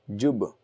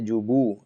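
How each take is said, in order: First: The final b ends in a short bounce only. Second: The final b is followed by a full u vowel. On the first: The speaker calls it right. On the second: The speaker calls it wrong.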